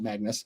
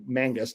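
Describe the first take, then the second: First: The n sound comes after the g sound. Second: The n sound comes before the g sound. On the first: The speaker calls it wrong. "not Magnus" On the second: The speaker calls it right. "or sorry, Mangus"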